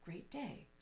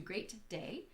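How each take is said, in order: First: The T is held silently with a brief stop. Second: The T is not held with a silent stop. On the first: The speaker calls it right. "The ways that we pause kind of at that T without saying it" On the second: The speaker calls it wrong. "As opposed to"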